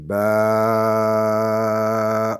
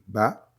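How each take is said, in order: First: The vowel is held for six counts. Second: The vowel is held for one short count. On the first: "six fois plus long" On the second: "La première, comme on dit"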